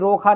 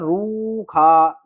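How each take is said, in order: First: The first vowel is a short 'o' sound. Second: The first vowel is a long 'oo' sound. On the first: The speaker calls it wrong. "ये रोखा नहीं है" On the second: The speaker calls it right. "ये ऊपर वो खिंचेगा"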